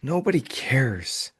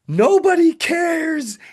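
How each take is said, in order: First: It is said in a sad, sighing tone. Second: It is said in a joyful, celebrating tone.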